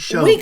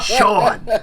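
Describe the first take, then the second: First: The word is said with an 'oh' vowel. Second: The word is said like the name Sean. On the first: This is the speaker's own way of saying it. "I say" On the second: This is how almost everyone else says it. "Everyone says Sean"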